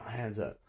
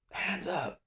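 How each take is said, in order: First: Slightly raised pitch, no yell; retold compliant echo. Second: Very high mock cop yell; imitating officer's command. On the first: Suspect answering the cop's order, mild retold echo. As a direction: echo the order back without shouting. His own compliant reply to officer. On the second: Cop repeating order to suspect, high imitated yell. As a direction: mimic the cop's strained high order.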